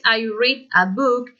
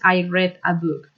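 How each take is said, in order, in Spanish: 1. Read se pronuncia como la forma del presente. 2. Read se pronuncia como la forma del pasado. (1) "En el presente es" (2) "en el pasado es"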